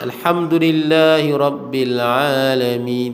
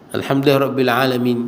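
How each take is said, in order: First: The first vowel of 'alamin' is held long. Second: The first vowel of 'alamin' is cut short. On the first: The speaker calls it right. "Dia panjang tu, tak bagi pendek" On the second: The speaker calls it wrong. "Salah. Tinggal alif, salah"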